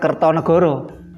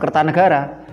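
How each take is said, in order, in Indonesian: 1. Vokalnya dilafalkan sebagai bunyi 'o' membulat. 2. Vokalnya dilafalkan sebagai bunyi 'a' terbuka. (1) "bukan Kertonegoro" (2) "membacanya tetap Kertanegara"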